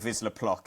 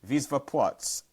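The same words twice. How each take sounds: First: The name is said with English pronunciation. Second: The name is said with Polish pronunciation. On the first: "it's better than saying Wisła Płock" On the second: "I've tried to do the Polish pronunciation for that"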